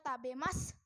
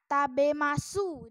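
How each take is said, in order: First: The final u is nearly silent. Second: The final u is fully pronounced.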